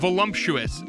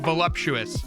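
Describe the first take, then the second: First: An extra m sound is added inside. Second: No extra m sound is added inside. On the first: The speaker calls it wrong. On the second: The speaker calls it right.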